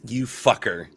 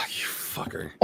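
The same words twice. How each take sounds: First: Said in the usual way. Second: Unvoiced sighing curse; mock outrage. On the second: Real, not acted. Betrayed by a friend's pick, whispered curse. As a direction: breathe it out in disbelief. Friend picks his favourite artist.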